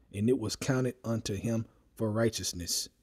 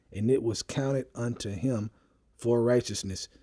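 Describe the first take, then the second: Both takes have the same delivery.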